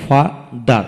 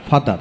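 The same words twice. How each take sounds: First: father in two slow beats, pause between; split into syllables. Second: Said in the usual way. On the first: Shown as a demonstration. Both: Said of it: "যতটুকু অংশ একসাথে উচ্চারণ".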